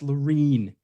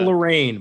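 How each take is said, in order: First: The last syllable sounds like 'reen'. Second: The last syllable sounds like 'rain'. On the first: The speaker calls it right. "It's Lorene" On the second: The speaker calls it wrong. "You want to say Lorraine, but it's not Lorraine"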